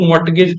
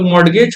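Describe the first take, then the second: First: मॉर्टगेज with the T sounded, "mort-gej"; hard T before the G in मॉर्टगेज; variant pronunciation. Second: मॉर्गेज with a light D, "mord-gej"; variant pronunciation. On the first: Teacher showing how other people say it, variant pronunciation. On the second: Teacher showing how some people say it, variant pronunciation. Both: Shown as a demonstration. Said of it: "तीन अलग अलग तरह से pronounce".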